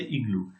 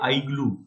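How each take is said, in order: First: The first vowel sounds like 'ee'. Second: The first vowel sounds like 'eye'. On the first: The speaker calls it right. "we say igloo" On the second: The speaker calls it wrong. "We don't say igloo"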